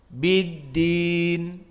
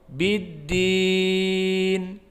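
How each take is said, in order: First: The long vowel is held for two counts. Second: The long vowel is held for four counts. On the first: "dua harokat" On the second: "empat harokat"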